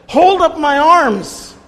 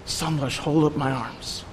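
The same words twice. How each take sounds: First: Much higher and louder, slow, crying out for help; desperate plea. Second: Quiet request. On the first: Priest begging the room to hold up his arms, high, loud, desperate. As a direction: beg it high and loud, like arms about to drop. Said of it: "almost tears in his eyes". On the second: Brother sitting with him asking quietly for support, soft and close. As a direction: ask it gently across the table. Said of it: "and says". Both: Retold or imitated.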